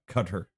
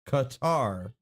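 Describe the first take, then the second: First: The name sounds like the word 'cutter'. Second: The name does not sound like 'cutter'. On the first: The speaker calls it wrong. "not Cutter" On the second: The speaker calls it right. "it is pronounced Qatar"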